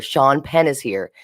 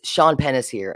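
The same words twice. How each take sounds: First: "Sean Penn is here" slowed and spelled out; repeated for clarity. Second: Said in the usual way. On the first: Retold or imitated. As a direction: say "Sean Penn is here" slowly for someone who missed it. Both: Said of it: "I couldn't really hear".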